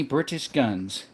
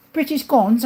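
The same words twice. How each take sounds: First: Said in the usual way. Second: High-pitched mock British accent. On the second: Echoing a viewer's question about British guns, British accent.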